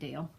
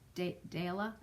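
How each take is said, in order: First: The name is said the English way. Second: The name is said the Norwegian way. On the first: "I've always said Dale" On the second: "in Norway it's pronounced Dala"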